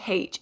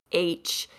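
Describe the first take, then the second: First: "H" said as haitch, with a breathed h at the start; haitch pronunciation. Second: "H" said as aitch, no h at the start; aitch pronunciation. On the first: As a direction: sound the h in "H": haitch. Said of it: "It's not H, it's H". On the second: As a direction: drop the initial h in "H": aitch. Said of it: "how to pronounce words properly". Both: Shown as a demonstration.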